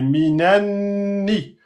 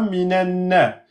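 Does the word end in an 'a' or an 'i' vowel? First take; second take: i; a. First: The word ends with an 'i' vowel. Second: The word ends with an 'a' vowel. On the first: The speaker calls it right. "c'est minanni" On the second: The speaker calls it wrong. "c'est pas minanna"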